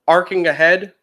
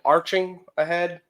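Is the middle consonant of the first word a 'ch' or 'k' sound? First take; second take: k; ch. First: The first word has a 'k' sound in the middle. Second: The first word has a 'ch' sound in the middle. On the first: The speaker calls it right. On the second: The speaker calls it wrong.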